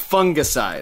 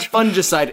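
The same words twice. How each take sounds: First: The first syllable does not sound like fun. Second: The first syllable sounds like the word fun. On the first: The speaker calls it right. "it's fungicide" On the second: The speaker calls it wrong. "It's not fungicide"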